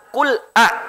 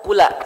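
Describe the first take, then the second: First: A glottal catch separates the l from the vowel. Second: The l runs straight into the following vowel. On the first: The speaker calls it right. "Yang benar kul a" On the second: The speaker calls it wrong. "jangan sampai Bapak membaca kula"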